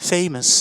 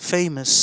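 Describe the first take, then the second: The two takes are said the same way.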